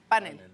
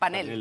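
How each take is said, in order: First: The stress is on the first syllable. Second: The stress is on the last syllable. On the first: This is how people in Mexico say it. "Como grave" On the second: This is the Spanish form found in the dictionary. "la variante de España"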